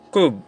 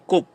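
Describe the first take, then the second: First: The word ends in a b sound. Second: The word ends in a p sound. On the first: "Second one is kub" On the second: "Pronunciation yan ay kup"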